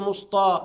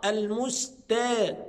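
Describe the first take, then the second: First: The t is heavy and emphatic. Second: The t is light, not emphatic. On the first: The speaker calls it wrong. "ما ينفعش اقول مسطى" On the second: The speaker calls it right. "الميم مرققة والسين مرققة والتاء مرققة"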